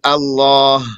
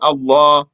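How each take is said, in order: First: The word has both the long vowel and final h. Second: The final h is dropped; the long vowel stays. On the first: "they'd say Allah" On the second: "omit the ha and say Allah"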